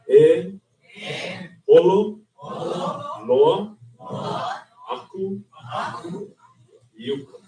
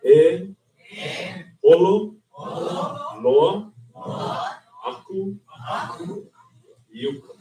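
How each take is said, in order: First: Each word is said separately. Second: Each word is said separately.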